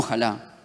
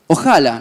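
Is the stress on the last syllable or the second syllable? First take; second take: last syllable; second syllable. First: The stress is on the last syllable. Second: The stress is on the second syllable. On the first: The speaker calls it wrong. "no ojalá" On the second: The speaker calls it right. "Juan Cruz lo escribió sin acento, es ojalá"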